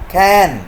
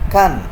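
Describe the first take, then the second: First: The word is said with a full vowel. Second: The word is said with a reduced vowel.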